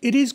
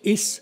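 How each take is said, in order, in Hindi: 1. दोनों शब्द पूरे और अलग-अलग बोले जाते हैं। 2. शब्द मिलकर एक छोटा शब्द बन जाते हैं। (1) "इट इज को करेंगे"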